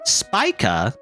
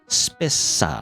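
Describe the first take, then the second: First: The middle consonant is a 'k' sound. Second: The middle consonant is an 's' sound. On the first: "Is that how you supposed to say Spica?" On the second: "I want to say Spissa because of um of like uh you know spice"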